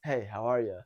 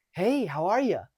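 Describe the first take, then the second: First: Low, deep adult greeting; calm, relaxed. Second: Put-on high, talking-to-a-kid greeting; too friendly. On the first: Coach shows the right hello to an adult, calm and relaxed. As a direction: say it deeper and more relaxed. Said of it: "More calm, more relaxed". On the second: Coach shows the wrong hello, too friendly. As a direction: gush as if to a kid. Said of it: "That's too friendly". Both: Shown as a demonstration.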